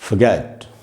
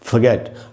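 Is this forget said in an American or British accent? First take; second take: British; British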